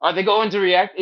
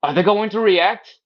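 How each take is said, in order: First: Repeated high nervous fret; worried onlooker. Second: High anxious fretting voice; worried onlooker. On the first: Onlookers watching a baby's needle, fretting high and anxious. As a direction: ask it again, anxious and high. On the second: Onlookers nervously watching a kid get a shot, high worried fretting. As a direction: fret nervously, pitched way up. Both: Retold or imitated. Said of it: "everybody else is like".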